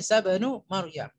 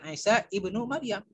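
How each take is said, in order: First: The middle word is shortened and linked as bin. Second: The middle word is said in full as ibnu. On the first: The speaker calls it right. "tapi Isa bin Maryam" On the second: The speaker calls it wrong. "Bukan Isa ibnu Maryam"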